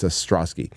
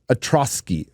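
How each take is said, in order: First: Ostrowski with the S sounded before the T; low, quiet correction, Ostrowski as "uh-STROS-kee"; corrected pronunciation. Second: Ostrowski with the first S dropped; mispronounced name. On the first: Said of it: "sorry, I said Orsky, but it's". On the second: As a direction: say Ostrowski as "uh-TROS-kee". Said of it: "sorry, I said Orsky". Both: Real, not acted.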